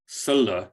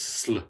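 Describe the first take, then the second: First: A vowel sound is inserted between S and L. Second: S and L glide together with no vowel. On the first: The speaker calls it wrong. "would not be sl" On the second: The speaker calls it right. "it's sl"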